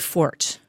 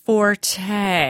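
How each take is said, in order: First: The word is said with one syllable. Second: The word is said with two syllables. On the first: The speaker calls it right. "it is my fort" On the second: The speaker calls it wrong. "that is the wrong pronunciation of that word"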